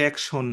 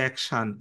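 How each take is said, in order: First: অ্যাকশন with a rounded "shon" ending; wrong local pronunciation. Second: অ্যাকশন with an open "shan" ending; correct pronunciation. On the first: Teacher shows students the common error, "shon" ending in অ্যাকশন. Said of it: "এটা কিন্তু অ্যাকশন না". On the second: Teacher corrects students' pronunciation, "shan" ending in অ্যাকশন. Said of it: "এটা হচ্ছে অ্যাকশন।". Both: Shown as a demonstration.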